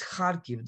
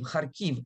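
First: The stress is on the first syllable. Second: The stress is on the second syllable. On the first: The speaker calls it right. "The accent is on the first syllable" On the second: The speaker calls it wrong. "everyone says Kharkiv, Kharkiv, and that's just wrong"

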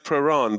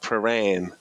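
First: It is said in an English accent. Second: It is said in an Australian accent. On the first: "I say Prahran, but everyone looks at you like, Prahran?" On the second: "you've got to have like an Australian accent. You've got to go like Prahran"

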